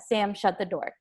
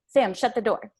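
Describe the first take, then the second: First: It is said in a calm, neutral tone. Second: It is said harshly with a raised voice. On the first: The request is polite. "more of like a neutral tone of voice" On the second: The speaker is mad. "a lot more harsh, or you're raising your tone of voice"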